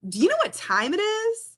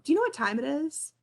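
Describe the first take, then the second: First: It is asked in an annoyed, scolding tone. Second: It is asked in a neutral, genuine tone.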